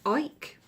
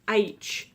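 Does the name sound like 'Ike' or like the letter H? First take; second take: Ike; letter H. First: The name rhymes with the word bike. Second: The name sounds like the letter H. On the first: "I read it as Ike" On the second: "pronounced as H"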